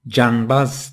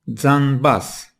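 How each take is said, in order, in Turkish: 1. İlk ses bir 'j' sesidir. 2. İlk ses bir 'dz' sesidir. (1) "Dikkat ederseniz canbaz diye okumadım" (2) "biz bunu Zazaca'da doğru bir biçimde zanbaz diye okuyacağız"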